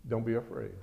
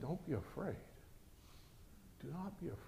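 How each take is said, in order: First: Quiet, steady prophet; calm the frightened servant; calm reassurance. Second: Near-whisper to settle him; hushed reassurance. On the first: Prophet calmly reassuring his terrified servant, quiet and steady. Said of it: "the prophet answered". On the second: Prophet hushing his panicking servant, very soft and gentle. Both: Acted.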